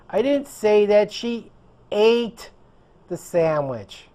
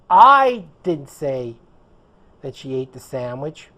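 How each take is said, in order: First: The word "ate" carries the stress. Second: The word "I" carries the stress. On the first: She did something else with it. "She did something else with the sandwich" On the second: Someone else said it. "which would mean it wasn't me. Someone else said it"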